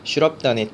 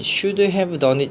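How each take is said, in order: First: 'Have' is reduced and blended into 'should'. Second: Each word, including 'have', is pronounced fully. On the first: The speaker calls it right. "should have done it 이렇게 나옵니다" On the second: The speaker calls it wrong. "발음이 should have done it 이렇게 나오지 않습니다"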